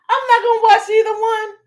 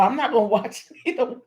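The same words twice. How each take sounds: First: "not" hit hard, much higher and louder; loud high declaration "I'm not gonna watch"; emphatic. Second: Quick words breaking into a laugh; chuckling through the line. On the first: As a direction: insist on "not", pitched way up. Repeats the line emphatically, loudly. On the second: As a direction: laugh it off, fast. Laughing at her own excitement. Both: Real, not acted.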